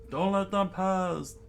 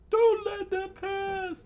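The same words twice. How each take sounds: First: High but full-voiced yell; drawn-out rallying order; shouted command. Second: Very high, loud falsetto yell; commanding kid. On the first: Young leader rallying boys against bandits, commanding. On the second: Acted. Child leader rallying boys against bandits, commanding. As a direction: squeal the order, drawn out.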